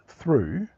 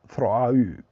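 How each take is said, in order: First: The vowel is said as one sound. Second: The vowel is split into two sounds. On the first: "that's O U" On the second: "if you put an umlaut on the O, it's thro, throau"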